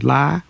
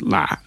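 First: The syllable is said with a flat level tone. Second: The syllable is said with a low constricted tone. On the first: It means to shout. "with no tone" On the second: It means strange. "with a low constricted tone"

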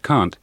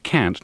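First: It has a long, open British vowel. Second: It has a short, flat American vowel. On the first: This is how it is said back home. The speaker calls it wrong. "not can't" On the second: This is how people in this country say it. The speaker calls it right. "you say can't"

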